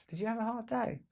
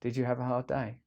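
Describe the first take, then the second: First: Higher, softer mock-sweet "Did you have a hard day?"; mock-caring sarcastic question. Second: Said in the usual way. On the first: Shown as a demonstration. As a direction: ask it with a sarcastic edge. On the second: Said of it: "let me see if I can do it".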